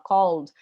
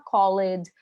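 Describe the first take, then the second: First: The ending adds no syllable to the word. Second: The ending is said as a separate syllable. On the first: The speaker calls it right. "a gente fala called" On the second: The speaker calls it wrong. "a gente não fala called"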